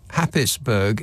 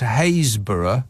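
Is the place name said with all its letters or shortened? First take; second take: all letters; shortened. First: Every written syllable is sounded, including 'pis'. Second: It is shortened to sound like 'Haysborough'. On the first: "Happisburgh, H A P P I S B U R G H" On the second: "pronounced Haysborough"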